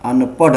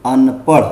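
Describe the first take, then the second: First: अनपढ़ with a stopped ḍh; wrong stop sound. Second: अनपढ़ with a flicked final ṛh; correct flap. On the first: Teacher rejecting the mistake, अनपढ़ with hard ḍh. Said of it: "अनपढ़ नहीं". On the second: Teacher correcting the reading, अनपढ़ with flapped ṛh. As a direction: say अनपढ़ as anpaṛh. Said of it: "होता है". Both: Shown as a demonstration.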